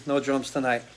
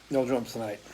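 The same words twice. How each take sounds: First: Said in the usual way. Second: Softer, half to himself; soft muttered echo of the line; softer repeat. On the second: Real, not acted. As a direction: repeat it quietly, with a shrug.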